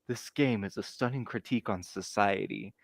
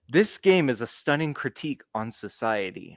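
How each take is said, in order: First: It is said in his normal voice. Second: It is said in a put-on, theatrical voice.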